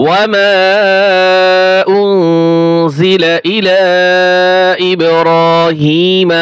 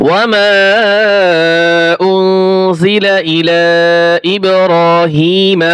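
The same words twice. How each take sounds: Both takes have the same delivery.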